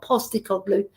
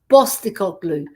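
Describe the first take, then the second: First: The name begins with a P sound. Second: The name begins with a B sound. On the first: The speaker calls it wrong. "it's not Postecoglou" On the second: The speaker calls it right. "it's Bostecoglou, because he's our boss"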